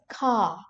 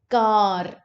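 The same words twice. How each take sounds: First: The final r is silent. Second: The final r is pronounced. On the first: The speaker calls it right. "in English, you say this word as car" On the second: The speaker calls it wrong. "r is pronounced in final positions of words"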